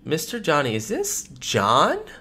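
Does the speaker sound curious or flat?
curious. It sounds curious and intrigued.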